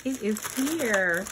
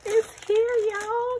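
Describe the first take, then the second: First: Said in the usual way. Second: Much higher, thrilled squeal; excited. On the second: Real, not acted. Telling viewers the keyboard arrived, excited high squeal. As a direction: burst out with joy. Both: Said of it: "Can you hear the excitement in my voice?".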